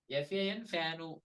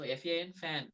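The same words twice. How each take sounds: First: "fanu" with a short oo added at the end; Telugu-accented English. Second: Said in the usual way. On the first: Shown as a demonstration. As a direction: say "fanu", tacking a short Telugu oo onto the final n. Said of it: "that is Telugu". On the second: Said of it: "that is English".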